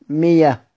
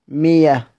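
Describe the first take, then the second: First: A y sound replaces the glottal stop. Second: The same.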